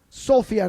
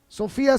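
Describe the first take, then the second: First: The stress is on the first syllable. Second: The stress is on the second syllable. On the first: The speaker calls it right. "no se acentúa" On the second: The speaker calls it wrong. "se acentúa"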